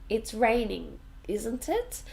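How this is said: The voice rises at the end of the tag. The speaker is less sure it is true. "But this one goes um, up"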